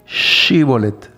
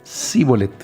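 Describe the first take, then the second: First: The word begins with a 'sh' sound. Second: The word begins with a plain 's' sound. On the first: This is the required way to say it. The speaker calls it right. "Tenían que decir Shibolet" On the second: The speaker cannot pronounce the sound. The speaker calls it wrong. "Ellos decían Sibolet porque no podían pronunciarlo bien"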